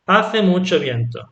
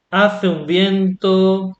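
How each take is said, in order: First: Said in the usual way. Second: Slow, stretched "Hace un viento" with weight on "Hace"; emphatic un. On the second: Shown as a demonstration. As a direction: say it slowly, leaning on the emphatic phrase. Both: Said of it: "For example".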